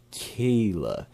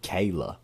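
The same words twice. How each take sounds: First: Kayla said KEE-la. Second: Kayla said KAY-la. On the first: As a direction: stretch Kayla as KEE-la, regional accent. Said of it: "that main accent says Kayla". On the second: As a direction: say Kayla with an ay in the first syllable. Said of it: "But it's not Kayla". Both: Shown as a demonstration.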